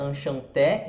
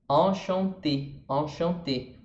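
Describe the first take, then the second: First: Enchanté ending in open "é", as in Portuguese; enchanté read with a Brazilian open final E; Portuguese-style open E. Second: Enchanté slowly, ending in closed "ê"; enchanté in French, nasal vowels, final E closed. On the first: Teacher showing how Brazilians would read it, open-E enchanté. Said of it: "a gente falaria enchanté em português". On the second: Teacher reading the French example, closed-E enchanté. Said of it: "mas é E em francês". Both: Shown as a demonstration.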